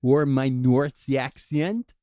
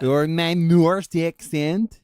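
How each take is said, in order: First: Slow, drawn-out fake Norse accent; mock Norse accent again. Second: Slow, loud mock Norse accent that drifts. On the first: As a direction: stretch it out in a put-on Norse accent. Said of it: "Do it again?". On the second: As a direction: drawl every word in a bad Norse accent. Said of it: "That's kinda Mexican?".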